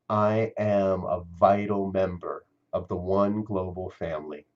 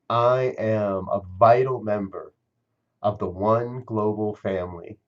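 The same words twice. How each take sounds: First: It is said with ordinary, moderate energy. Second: It is said with more feeling and force.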